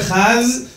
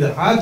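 First: The word ends with a z sound. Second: The word ends cleanly on a d sound. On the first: The speaker calls it wrong. "אין לא אחז" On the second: The speaker calls it right. "תגיד אחד וזהו, ואל תאריך"

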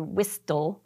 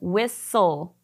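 First: The t sound is clearly pronounced. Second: The t sound is silent. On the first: The speaker calls it wrong. "We don't say whistle" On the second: The speaker calls it right. "That T is kind of silent"

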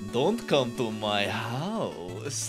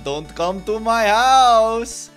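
First: It is spoken in a sultry, seductive voice. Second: It is spoken in a mock Dracula voice. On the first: "Give him a sexy voice" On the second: "the voice I've given Spectre Knight is that of the Vine Dracula"

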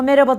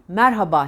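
First: The middle h sound is dropped. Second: The middle h sound is clearly pronounced. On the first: The speaker calls it wrong. "Ama merhaba da değil" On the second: The speaker calls it right. "H'yi yutmadan"

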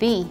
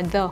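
First: The word ends in a long 'ee' vowel. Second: The word ends in a short 'uh' vowel. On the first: This form is used before a word starting with a vowel. "Thì chúng ta sẽ đọc là the" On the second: This is the usual form before most words. "Chúng ta hay đọc bình thường là the"

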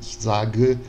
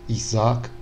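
First: The word ends with an audible final e. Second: The word ends without a final e sound. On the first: This is the older, fuller form. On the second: This is the modern, contemporary form.

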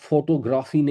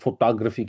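First: The word is said in a local Urdu-style pronunciation. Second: The word is said in an English-style pronunciation. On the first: The speaker calls it wrong. "American accent میں بولیں گے تو آپ فوٹوگرافی نہیں کہہ سکتے" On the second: The speaker calls it right. "فوٹوگرافی کہنا پڑے گا"

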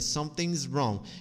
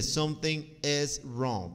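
First: The word 'is' is shortened to an s sound. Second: The word 'is' is pronounced fully and separately. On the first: "Pode dizer something's wrong" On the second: "Não precisa dizer something is wrong"

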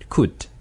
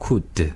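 First: The word ends cleanly on the final consonant. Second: An extra vowel sound follows the final consonant. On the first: The speaker calls it right. "이렇게 끝나야 되는데" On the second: The speaker calls it wrong. "으 소리를 집어넣으니까"

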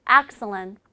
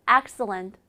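The two takes are said the same way.

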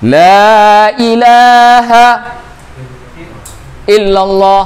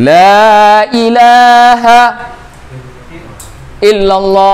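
First: A pause breaks the phrase after 'la ilaha'. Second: The same.

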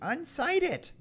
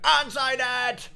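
First: The word is said at normal volume. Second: The word is shouted loudly.

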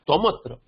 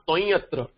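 First: A clear m sound links into 'atra'. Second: The m sound is not pronounced before 'atra'. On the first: The speaker calls it right. "it has to be makara here" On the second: The speaker calls it wrong. "It is not toyatra"

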